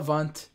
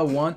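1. É dita com um sotaque que soa alemão. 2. É dita com uma pronúncia simples, sem sotaque. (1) "Então ele fala alemão, ... ele fala want" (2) "quando ele fala want"

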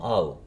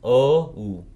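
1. Слово — 'ah', переходящий в 'oo'. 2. Слово — 'oh', переходящий в 'oo'. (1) "Потом ау" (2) "или о у"

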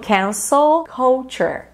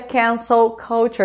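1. É dita mais devagar. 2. É dita em velocidade normal.

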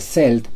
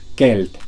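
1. La palabra empieza con sonido s. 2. La palabra empieza con sonido k. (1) "no se pronuncia celt" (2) "sino kelt, con k"

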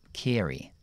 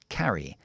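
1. La primera vocal suena más cercana a una 'e'. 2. La primera vocal suena como una 'a' abierta. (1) "en el acento estadounidense... hacen como una E ahí" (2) "la A tiene que ser A"

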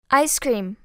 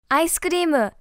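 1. アクセントは一つ目の単語にあります。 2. アクセントは二つ目の単語にあります。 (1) "全部前の方強く読むの？" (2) "じゃないよね"

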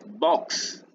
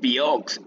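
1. Empieza con el sonido simple de b. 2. Empieza con el nombre de la letra 'bee'. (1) "es box, nada más" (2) "No es biox"

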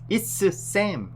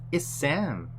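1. s 소리를 두 번 따로 발음해요. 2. s 소리를 한 번만, 이어서 발음해요. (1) "이렇게 하지 말고" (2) "한 번만 발음하면 돼요"

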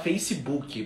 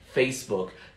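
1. É pronunciado com sons do português brasileiro. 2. É pronunciado com sons do inglês. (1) "A gente fala Facebook" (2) "mas eles falam Facebook"

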